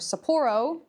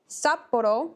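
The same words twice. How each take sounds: First: It is said the American way. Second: It is said the Japanese way.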